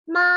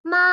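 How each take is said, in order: First: It is said with the first tone. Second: The same.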